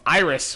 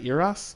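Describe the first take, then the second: First: The name is said with English vowel sounds. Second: The name is said with Polish vowel sounds. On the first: The speaker calls it wrong. "Iris was the the first way" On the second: The speaker calls it right. "it's Polish"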